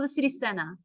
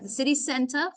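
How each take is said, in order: First: The sounds are relaxed and run together. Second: Every sound is pronounced carefully and fully. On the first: "You'll hear it like that in English" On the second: "for proper pronunciation"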